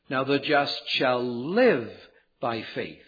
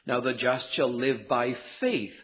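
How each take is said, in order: First: The word live carries the main stress. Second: The word faith carries the main stress. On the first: The life itself is changed by faith. "the stress is on the word live" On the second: Faith, not law observance, is the principle. "the emphasis is upon the word faith"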